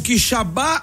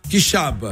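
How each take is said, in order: First: The stress is on the last syllable. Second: The stress is on the second syllable. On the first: The speaker calls it wrong. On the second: The speaker calls it right.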